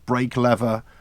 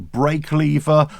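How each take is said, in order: First: Lever is said the American way. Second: Lever is said the British way.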